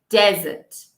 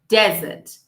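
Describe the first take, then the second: First: The stress is on the first syllable. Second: The same.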